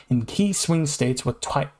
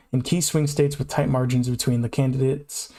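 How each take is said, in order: First: Tripping over the words; misspeaking mid-sentence, slowing; stumbling. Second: Said in the usual way. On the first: Real, not acted. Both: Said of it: "I keep misspeaking".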